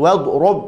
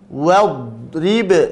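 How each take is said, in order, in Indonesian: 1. Huruf r diikuti vokal u. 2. Huruf r diikuti vokal i. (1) "rub tidak" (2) "ra-nya dikasrahkan"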